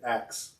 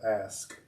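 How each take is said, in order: First: The word ends with a 'ks' sound. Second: The word ends with an 'sk' sound. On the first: "I used to say as a kid" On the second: "instead of ask"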